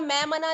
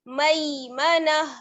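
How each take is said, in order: First: The first vowel is one flat vowel. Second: The first vowel glides toward a y sound. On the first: The speaker calls it wrong. "मैं मना नहीं पढ़ना है" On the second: The speaker calls it right. "बल्कि मई मई मना"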